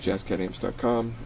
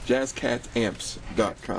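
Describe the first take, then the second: First: The address is said at a normal, quick pace. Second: The address is said slowly and deliberately.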